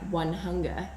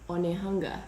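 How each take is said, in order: First: It is said like the English words one hunger. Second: It is said with Māori vowels as one word. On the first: The speaker calls it wrong. "it looked like One Hunger" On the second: The speaker calls it right. "it's actually Onehunga"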